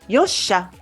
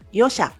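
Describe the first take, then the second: First: The s sound is doubled and held long. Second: The s sound is single and short. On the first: The speaker calls it right. "on prononce Yosha" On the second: The speaker calls it wrong. "Ce n'est pas Yosha"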